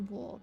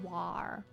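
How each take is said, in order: First: It is said in a non-American accent. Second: It is said in an American accent. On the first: "And I say war" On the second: "You guys say war"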